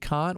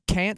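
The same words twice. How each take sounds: First: It is said in the speaker's own non-American accent. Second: It is said in an imitated American accent.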